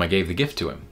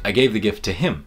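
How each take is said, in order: First: The word him carries no special stress. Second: The word him carries strong stress. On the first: "which is different from" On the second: "We stress the word and say"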